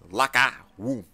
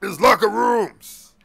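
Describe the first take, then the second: First: "Locker room" read out low, word by word; reading the sign. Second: "locker rooms" loud, higher and drawn out; emphatic correction. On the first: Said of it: "I know how to read". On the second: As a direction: correct him, stretching "locker rooms" loudly. Officer corrects his reading. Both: Acted.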